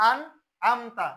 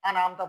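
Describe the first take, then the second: First: আনআমতা as "an; correct closed N. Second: আনআমতা run open as "ana-amta"; wrong added vowel. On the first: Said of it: "তাহলে এটা হবে কি?". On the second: Teacher mimics many readers, "ana" slip in আনআমতা. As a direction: say আনআমতা with an extra A after N. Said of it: "এইখানে অনেকজনে আনা". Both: Shown as a demonstration.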